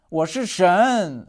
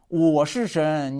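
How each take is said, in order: First: The stress falls on the word 神. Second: The stress falls on the word 我. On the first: The speaker is God rather than a human. "我不是你们人" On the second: Humans are not God, only the speaker is. "强调我"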